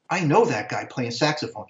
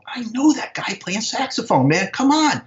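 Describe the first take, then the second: First: Said in the usual way. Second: High, incredulous re-enacted exclamation; freaking out. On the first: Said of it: "I'm going to myself". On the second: Spotting an old friend on stage, freaking out. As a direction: insist on it in amazed disbelief, pitch leaping. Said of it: "I was freaking out".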